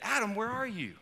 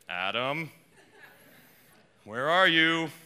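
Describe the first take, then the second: First: The call sounds soft and gentle. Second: The call sounds harsh and angry. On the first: A caring call to someone missed. "in the way I just said it" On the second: A scolding call to someone in trouble. "we typically hear, ... like we might talk to our children"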